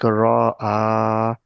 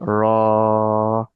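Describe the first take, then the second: First: The vowel is split into two separate parts. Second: The vowel is held long as one sound. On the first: The speaker calls it wrong. "don't read separately. We don't say like raw ah" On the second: The speaker calls it right. "We just stretch raw sound for two seconds"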